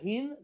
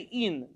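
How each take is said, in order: First: The word begins with an audible H sound. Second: The word begins with no H sound. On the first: The speaker calls it right. "instead of a hin" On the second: The speaker calls it wrong. "they would say in. They didn't pronounce the H"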